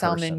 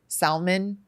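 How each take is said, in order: First: The L sound is clearly pronounced. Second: The L sound is left out. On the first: The speaker calls it wrong. "you should have your driver's license taken away from you" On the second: The speaker calls it right. "the L is silent"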